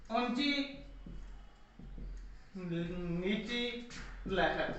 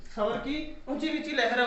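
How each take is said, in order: First: ऊंची said softly, then नीची लहर drawn out very slowly, sinking lower and softer; rising and falling tone shown. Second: Said in the usual way. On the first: Shown as a demonstration. Teacher acting out a rising and falling tone for students, slow and sinking. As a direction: let ऊंची hang quietly, then stretch नीची लहर far down, very slow.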